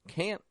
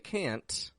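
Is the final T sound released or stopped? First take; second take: stopped; released. First: The final T is stopped, not released. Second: The final T is clearly released. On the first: "we make a stop T" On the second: "I didn't say can't"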